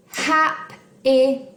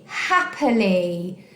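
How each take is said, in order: First: "Hap-i-ly" in three separate beats; slow, syllable-by-syllable "Hap-i-ly"; split into syllables. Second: Said in the usual way. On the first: Shown as a demonstration. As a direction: break "Hap-i-ly" into hap, i, ly with clear gaps. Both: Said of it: "then you've got the I in the middle".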